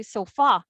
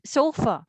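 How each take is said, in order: First: "sofa" as so-FA, stressing the end; wrong-syllable stress. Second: "sofa" as SO-fa, with a relaxed ending; first-syllable stress. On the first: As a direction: put the weight on FA in "sofa". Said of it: "Since we don't say sofa". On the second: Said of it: "it's sofa". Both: Shown as a demonstration.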